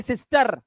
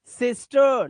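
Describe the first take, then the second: First: सिस्टर with a hard rolled final r; wrong sounded r. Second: सिस्टर ending in a drawn uh; silent r. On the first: Teacher showing what to avoid, सिस्टर with rolled r. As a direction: trill the r closing सिस्टर. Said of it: "ना कि". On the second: Teacher models सिस्टर for learners, uh ending. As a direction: finish सिस्टर on uh without the r. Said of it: "उसमें अ की आवाज देते हैं". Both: Shown as a demonstration.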